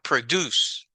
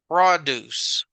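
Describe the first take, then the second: First: The stress is on the second syllable. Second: The stress is on the first syllable. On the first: It is the verb, meaning to create something. The speaker calls it wrong. "not produce" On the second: It is the noun, meaning farm goods. The speaker calls it right. "a word in English that is pronounced produce"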